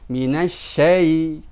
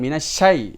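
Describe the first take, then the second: First: The ending is held for two beats. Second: The ending is held for one beat. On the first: The speaker calls it right. "sin satu ya satu, maka ketukannya juga harus" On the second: The speaker calls it wrong. "bukan satu"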